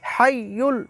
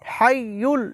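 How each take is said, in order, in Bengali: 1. দ্বিতীয় স্বরটি u ধ্বনি। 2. দ্বিতীয় স্বরটি u ধ্বনি।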